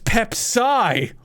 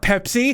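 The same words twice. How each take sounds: First: The stress is on the second syllable. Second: The stress is on the first syllable. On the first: The name hides a hint of psychic power. "It's the psi in Pepsi" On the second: It is just the soda's name. "It's not Pepsi"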